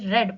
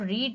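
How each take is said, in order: First: The vowel is a short e sound. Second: The vowel is a long ee sound. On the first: It is the second or third form of the verb. The speaker calls it right. "रेड पढ़ते हैं" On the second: It is the present form of the verb. The speaker calls it wrong. "Second और third form में हम उसको रीड ना पढ़ के"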